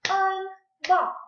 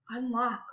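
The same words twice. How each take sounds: First: "Unlock" high and loud in two beats; clapped syllables. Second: Said in the usual way. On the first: Shown as a demonstration. Teacher clapping out a word for pupils, loudly split. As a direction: punch out "Unlock" as un, pause, lock. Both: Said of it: "Let's clap it out".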